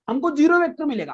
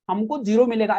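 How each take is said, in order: First: zero vector said higher with a firm fall; stress on zero vector. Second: Said in the usual way. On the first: Shown as a demonstration. Teacher correcting students, stressing zero vector. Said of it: "आपको बोलना है". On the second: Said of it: "ऐसा नहीं, ऐसा नहीं बोलना".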